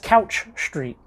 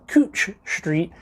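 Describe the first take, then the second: First: The vowel sounds like the one in 'cow'. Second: The vowel sounds like the one in 'coo'. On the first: Visitors say it this way. "people go there and they're like" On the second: Locals say it this way. "the locals pronounce it Cooch Street"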